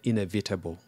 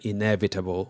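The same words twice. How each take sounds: First: It is said with a Nigerian pronunciation. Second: It is said with a standard American pronunciation. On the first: "typical Nigerian" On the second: "when they want to say"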